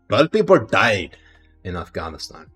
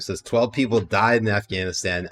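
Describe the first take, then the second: First: It is read in a put-on Pakistani accent. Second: It is read in the speaker's usual accent. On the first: "I'll do it one time in Pakistani accent" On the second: "Let's not read it in a Pakistani accent this time"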